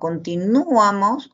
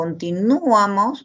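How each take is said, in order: First: The strongest stress falls on the u. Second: The same.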